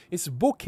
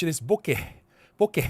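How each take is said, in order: First: "boke" with a clean final vowel and silent H; boke without H. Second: "boke" ending in a short breathy eh-h. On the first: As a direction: say "boke" with nothing breathed after the vowel. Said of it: "With, with, without the H". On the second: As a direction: let the H be heard at the end of "boke". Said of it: "If it's with the H". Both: Shown as a demonstration.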